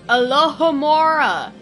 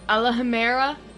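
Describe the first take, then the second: First: The middle syllable is said as 'ho'. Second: The middle syllable is said as 'ha'. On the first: The speaker calls it right. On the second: The speaker calls it wrong.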